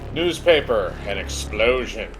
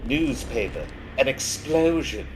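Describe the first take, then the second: First: It is read without a British accent. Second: It is read in a British accent. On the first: The speaker calls it wrong. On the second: The speaker calls it right.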